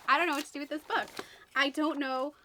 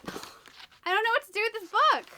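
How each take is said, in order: First: Flustered. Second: A higher, sighing, helpless complaint; exasperated sigh. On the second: Booktuber giving up on the confusing book, sighed and exasperated. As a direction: sigh it out like you've given up. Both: Real, not acted. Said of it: "I'm so all over the place with my reactions".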